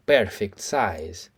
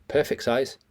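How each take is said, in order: First: Very slow, drawn out; drawn-out mimicry; slow stretched echo. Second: Said in the usual way. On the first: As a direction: savour each word slowly.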